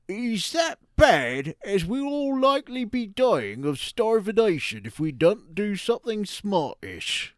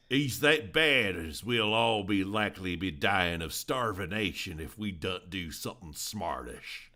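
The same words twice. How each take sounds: First: A slow, higher West Country Devon accent. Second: A light Southern hillbilly accent, a bit louder. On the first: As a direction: read it like a Devon farmer. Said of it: "as if it is a guy from Devon". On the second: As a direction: read it like a hillbilly farmer. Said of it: "you read it as if it's a hillbilly". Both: Shown as a demonstration.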